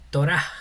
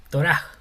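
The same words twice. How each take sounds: First: The word ends with a breathy h sound. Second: The word ends with a breathy h sound.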